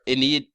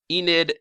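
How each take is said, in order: First: Enid said ih-NEED; short first vowel in Enid, long ee at the end; alternative pronunciation. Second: Enid said EE-nid; first pronunciation attempt. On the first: Vlogger offering another reading, Enid as ih-NEED. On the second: Vlogger trying out a character's name, Enid as EE-nid. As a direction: stress the first syllable of Enid, long ee. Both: Shown as a demonstration. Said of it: "I don't know how to pronounce it".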